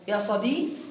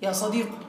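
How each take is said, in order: First: The final consonant ends with an a vowel. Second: The final consonant ends with a u vowel. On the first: "حذف الياء وفتح الحرف الأخير" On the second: "حذفنا الياء وضممنا القاف"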